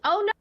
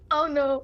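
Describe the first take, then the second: First: It is said in a normal voice. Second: It is said as a very deep howl.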